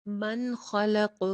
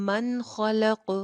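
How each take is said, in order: The two takes are said the same way.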